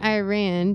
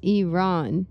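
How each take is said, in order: First: It sounds like the English phrase 'I ran'. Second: It does not sound like 'I ran'. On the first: The speaker calls it wrong. "it's not Iran because you're not running anywhere" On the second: The speaker calls it right. "It's Iran. That is the name of the country"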